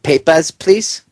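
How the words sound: It is said in a put-on German accent.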